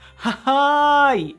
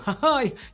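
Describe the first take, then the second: First: The laugh sound is stretched out longer. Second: The laugh sound is said short.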